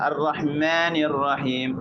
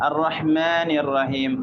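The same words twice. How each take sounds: Both takes have the same delivery.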